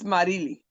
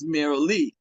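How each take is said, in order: First: The name is said with a Spanish pronunciation. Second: The name is said with an English pronunciation. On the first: This is how family says the name. "how does your family say your name? It's Marili" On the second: This is how outsiders say the name. "everybody says Marilee, because that's that's the best way to pronounce it in English"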